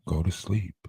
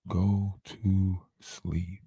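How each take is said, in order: First: Deep lullaby voice. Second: Very slow, deep and soft; slower drawn-out lullaby. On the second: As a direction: stretch it out as she drifts off. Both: Pretend. Lulling to sleep, repeated.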